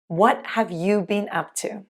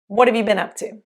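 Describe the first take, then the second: First: Each word is said fully and separately. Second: The words are contracted and reduced together.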